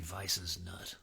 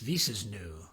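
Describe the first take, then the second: First: The name ends in a plain 'nut' sound. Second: The name ends in a fancy 'new' sound. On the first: "but it might be" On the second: "makes me want to say it fancy-like"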